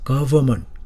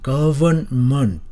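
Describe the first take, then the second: First: A sound in the middle is dropped. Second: Every sound in the middle is pronounced carefully. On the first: "이 발음을 생략을 해요. 대부분. 그래서 government 그렇게 발음하는 것입니다" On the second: "정확하게 발음한다면 government"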